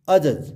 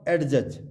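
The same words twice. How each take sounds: First: Adjudge said as "a-judge"; silent D. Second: Adjudge said as "ad-judge"; sounded D. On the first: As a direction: drop the D in adjudge. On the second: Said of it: "not adjudge". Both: Shown as a demonstration.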